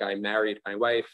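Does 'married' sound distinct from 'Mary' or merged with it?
distinct. Married has its own vowel, unlike Mary. "as a New Yorker ... probably still have different vowels"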